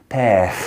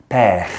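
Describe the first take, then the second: Both takes have the same delivery.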